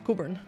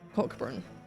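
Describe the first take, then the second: First: The k sound is silent in the name. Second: The k sound is pronounced in the name. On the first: The speaker calls it right. "It's Coburn" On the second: The speaker calls it wrong. "You don't you don't pronounce it like that"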